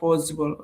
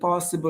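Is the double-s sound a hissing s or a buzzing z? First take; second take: buzzing z; hissing s. First: The middle consonant is a buzzing z sound. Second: The middle consonant is a hissing s sound. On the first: The speaker calls it wrong. "not possible" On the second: The speaker calls it right. "when we have double S in a word, ... we have to pronounce it like possible"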